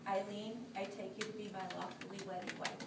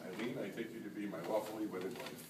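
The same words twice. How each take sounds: First: Solemn vow, said for her to repeat; saying wedding vows. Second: Quieter, sincere repeated vow; saying wedding vows. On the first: Shown as a demonstration. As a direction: read the vow line out clearly. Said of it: "the part you're going to repeat after me". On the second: Real, not acted. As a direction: echo the vow back softly. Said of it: "repeat after me".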